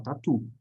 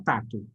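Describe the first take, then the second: First: "tatu" with the weight on TU; light first syllable, lean on the end of "tatu"; "tatu" as ta-TU, the correct-stress example; stress on last syllable. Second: "tato" with the weight on TA; "tato" as TA-to, the wrong-stress example; stress on first syllable. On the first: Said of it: "a gente fala tatu". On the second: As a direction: hit the first syllable of "tato", let the last drop. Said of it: "A gente não fala tato". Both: Shown as a demonstration.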